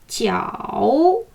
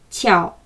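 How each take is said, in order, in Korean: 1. 음이 낮게 내려갔다가 다시 올라갑니다. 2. 음이 낮게 내려가서 그대로 머무릅니다. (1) "올라오지 않고" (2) "최저음에서 멈추는 겁니다"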